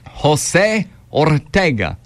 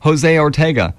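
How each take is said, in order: First: The name is said with a Spanish accent. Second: The name is said with an English accent. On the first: "Very nice with that last name. I learned it was my South Texas days"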